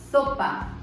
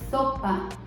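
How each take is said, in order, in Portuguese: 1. O s é ceceado, com a língua entre os dentes. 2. O s é ceceado, com a língua entre os dentes.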